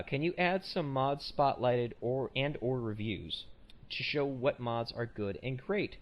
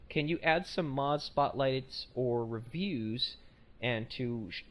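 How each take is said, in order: First: Slow, deliberate second read of the email; retrying the email line slowly; slow careful reread. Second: Halting slow read; first slow attempt at the email; slow careful reading. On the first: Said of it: "let me try this again". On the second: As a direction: read it out slowly, word by word. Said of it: "let me try this again 'cause I fucked that up horribly". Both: Shown as a demonstration.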